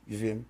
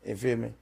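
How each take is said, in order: Both takes have the same delivery.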